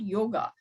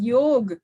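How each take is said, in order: First: The word ends with a final vowel sound. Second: The word ends on a consonant sound. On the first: This is the Western form of the word. The speaker calls it wrong. "It is not yoga" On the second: This is the original form of the word. The speaker calls it right. "It is yoga"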